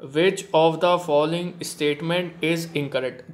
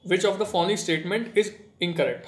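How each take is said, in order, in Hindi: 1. इसे धीरे-धीरे, शब्द-दर-शब्द, सोच-समझकर पढ़ा जाता है। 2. इसे जल्दी और लापरवाही से पढ़ा जाता है, बिना ज़ोर के। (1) "line to line, word to word आपको चलना है" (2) "कुछ बच्चे तो ऐसे पढ़ेंगे, ... हवा हवा में पढ़ लिया"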